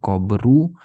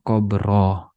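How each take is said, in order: First: The word ends with a u vowel. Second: The word ends with an a vowel. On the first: "bukan qabru" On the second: "bukan qabroh"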